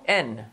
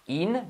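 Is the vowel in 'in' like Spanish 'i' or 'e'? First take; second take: Spanish e; Spanish i. First: The vowel sounds like a Spanish 'e'. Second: The vowel sounds like a Spanish 'i'. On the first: The speaker calls it right. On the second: The speaker calls it wrong.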